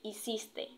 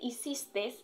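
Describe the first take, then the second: First: The word ends with a plain vowel e. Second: The word ends with an added s sound. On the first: The speaker calls it right. "termina en E" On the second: The speaker calls it wrong. "termina en S, aumenta la S cuando no es así"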